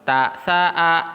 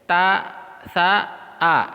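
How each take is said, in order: First: The syllables are joined without pauses. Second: The syllables are separated by pauses.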